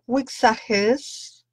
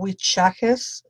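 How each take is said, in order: First: Wixajes with an x, as in "ks"; unsure pronunciation. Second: Wichajes with a "ch" in the middle; alternative pronunciation. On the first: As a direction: try Wixajes with a "ks" sound in the middle. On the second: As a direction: slowly try Wichajes with "ch" instead of "ks". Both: Shown as a demonstration. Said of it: "I don't know how you pronounce it".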